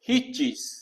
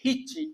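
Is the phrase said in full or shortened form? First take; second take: full; shortened. First: The phrase is said in its full form. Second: The phrase is said in a shortened form. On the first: This is the formal form. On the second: This is the everyday spoken form.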